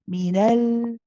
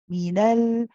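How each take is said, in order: Both takes have the same delivery.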